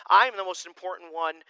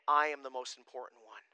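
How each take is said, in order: First: "I am the most important one" said louder with self-importance; proud loud declaration. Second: Said in the usual way. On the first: Shown as a demonstration. Pastor mocking selfish people, proud loud claim. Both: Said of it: "When we started saying".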